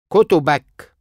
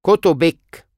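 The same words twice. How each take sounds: First: كتبك said kotobak, ending in -ak; masculine you form. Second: كتبك said kotobek, ending in -ek; feminine you form. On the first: Teacher drills the masculine form of your books. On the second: Teacher drills the feminine form of your books. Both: Shown as a demonstration.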